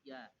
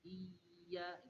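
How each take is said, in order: First: The word is said short and direct. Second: The word is dragged out and drawn long. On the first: The speaker calls it right. "Bacanya langsung" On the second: The speaker calls it wrong. "dibaca iya itu diseret"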